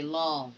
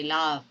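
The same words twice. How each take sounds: First: "love" with a rounded aw, like lawv; corrected vowel in love. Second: "love" with an open ah, like lahv; wrong vowel in love. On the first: Teacher giving the correction, "love" with rounded aw. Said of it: "but you say love". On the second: Teacher showing what not to say, "love" with open ah. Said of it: "You do not say love". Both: Shown as a demonstration.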